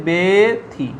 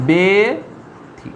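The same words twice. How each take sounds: First: বেথি with a closed 'e', be-thi, falling at the end; demonstrated pronunciation. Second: বেথি very slowly, beee-thi, the closed 'e' held long; slow pronunciation demo. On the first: Teacher answering how it is pronounced, বেথি with a closed 'e'. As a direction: say বেথি as 'bethi', first vowel like 'bay'. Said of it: "তাহলে তার উচ্চারণ কীরকম হবে". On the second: Teacher showing students the pronunciation, বেথি stretched syllable by syllable. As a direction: split বেথি into two drawn-out syllables, be... thi. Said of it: "এটা উচ্চারণ". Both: Shown as a demonstration.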